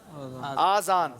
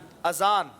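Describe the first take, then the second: First: The first vowel is long. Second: The first vowel is short. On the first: Two ears. The speaker calls it wrong. "इसको बाज लोग पढ़ते हैं आजान, आजान गलत है" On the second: The call to prayer. The speaker calls it right. "अजान मतलब जो नमाज के लिए बुलावा होता है"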